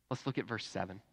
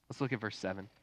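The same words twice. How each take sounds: The two takes are said the same way.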